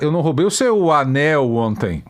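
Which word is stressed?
anel. The word anel carries the stress. Something else was taken. "Eu roubei a bota"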